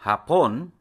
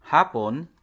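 First: Hapon with stress on PON; second-syllable stress. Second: Hapon with stress on HA; first-syllable stress. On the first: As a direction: punch the last syllable of hapon. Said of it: "stressed in the second syllable". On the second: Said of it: "stressed on the first syllable". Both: Shown as a demonstration.

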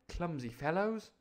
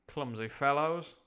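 First: Put-on higher boyish six-year-old's voice; Jim. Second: Said in the usual way. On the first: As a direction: play a sniffy little boy, pitched up. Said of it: "I'll do that in Jim's voice". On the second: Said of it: "Sorry, I'll do that in Jim's voice".

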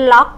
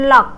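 First: "lock" held up in pitch, not falling; high tone. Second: "lock" short, with a falling tone; low falling tone. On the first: Teacher offering the other tone option, raised "lock". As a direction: keep "lock" high, crisp final k. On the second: Teacher showing one tone option, falling "lock". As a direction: drop the pitch on "lock", crisp final k. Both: Shown as a demonstration. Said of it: "ขึ้นเสียงสูงหรือเสียงต่ำเนาะ".

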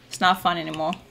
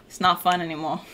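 The two takes are said the same way.

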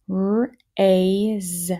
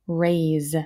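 First: "Raise" stretched as r, ay, z; sounded out. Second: Said in the usual way. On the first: Shown as a demonstration. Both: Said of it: "Here we go, next row".

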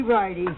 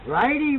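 First: Said in the usual way. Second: Righty called out higher and louder; emphatic righty. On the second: Shown as a demonstration. Explaining the pedal thread to a helper, emphatic. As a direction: punch the first Righty to teach the rule.

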